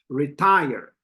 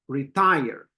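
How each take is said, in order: First: The stress is on the second syllable. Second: The same.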